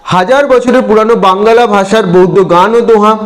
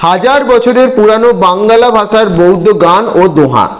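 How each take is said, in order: The two takes are said the same way.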